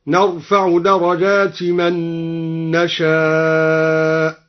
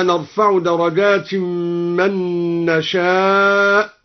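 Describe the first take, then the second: First: Slow chant, "درجات" as darajati, long drawn "نشاء"; no tanween. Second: Slow recitation, "درجات" nasalised into "من"; with tanween. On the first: Reciter demonstrates al-Duri's reading, "درجات" without tanween. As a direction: end "درجات" on short i without n. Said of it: "بحذف التنوين على الإضافة". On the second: Reciter cites the verse, tanween on "درجات". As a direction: recite "درجات" as darajatin, merged into "من". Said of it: "قرأ الدوري بحذف التنوين". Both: Shown as a demonstration.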